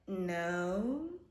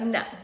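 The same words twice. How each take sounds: First: It is said evasively, like someone lying. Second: It is said plainly and directly.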